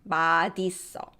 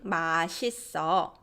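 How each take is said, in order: First: The end of 맛 keeps its representative sound. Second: The end of 맛 flows into the next syllable. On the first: It is treated as two words joined together. "instead of 맛있어" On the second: It is treated as one word. "people started talking, uh, saying 맛있어"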